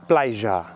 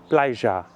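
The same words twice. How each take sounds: The two takes are said the same way.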